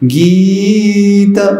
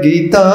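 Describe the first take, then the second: First: The first vowel is drawn out long. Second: The first vowel is short, the last long. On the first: The speaker calls it right. "गी लंबा खींचना है" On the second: The speaker calls it wrong. "गीत छोटा करेंगे और त को लंबा करेंगे"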